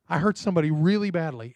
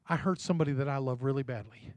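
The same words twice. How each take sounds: First: Said in the usual way. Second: Soft, low and heavy; quiet confession. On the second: Retold or imitated. Preacher voicing the mother confessing an old hurt, hushed and sorrowful. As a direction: confess it quietly, full of regret.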